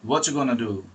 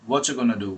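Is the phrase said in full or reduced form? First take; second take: reduced; reduced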